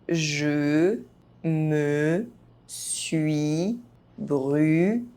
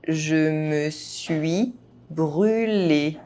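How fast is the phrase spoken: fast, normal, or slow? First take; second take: slow; normal. First: The phrase is spoken very slowly. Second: The phrase is spoken at normal speed. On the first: Each syllable can be heard clearly. "very slowly" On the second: This is the pace learners should use. "at a normal pace"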